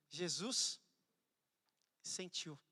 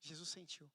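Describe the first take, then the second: First: Said in the usual way. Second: Said again much softer, almost to himself; hushed repeat. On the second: Shown as a demonstration. Pastor repeating the phrase softly for the church. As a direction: let it sink in quietly.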